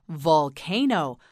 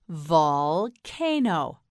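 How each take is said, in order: First: Said in the usual way. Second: "Volcano" very slowly as vol... cano; broken into syllables. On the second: Shown as a demonstration. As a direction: stretch and split "Volcano". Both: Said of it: "You say it".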